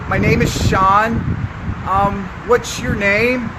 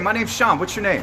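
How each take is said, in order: First: It sounds hesitant, with filler sounds. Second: It sounds confident and direct. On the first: The speaker is unsure of himself. The speaker calls it wrong. "not confidence" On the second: The speaker is sure of himself. The speaker calls it right. "with confidence"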